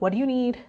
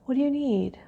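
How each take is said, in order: First: It is said in an irritated tone. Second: It is said in a gentle tone.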